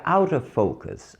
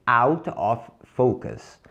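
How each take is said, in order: First: "out of focus" run together as OW-duh FOH-kus; linked words. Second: Slow, separated "Out of focus"; word by word. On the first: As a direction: link "out of focus" straight through without gaps. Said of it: "Direto seria". ("out of focus" direto, emendado) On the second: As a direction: say "Out of focus" slowly, each word apart. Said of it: "Direto seria out of focus". ("Out of focus" devagar, palavra por palavra) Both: Shown as a demonstration.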